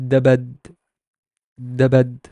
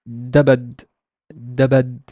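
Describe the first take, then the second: The two takes are said the same way.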